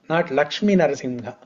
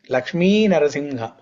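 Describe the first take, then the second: First: The first name ends in a short vowel. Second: The first name ends in a long vowel. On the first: The speaker calls it wrong. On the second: The speaker calls it right.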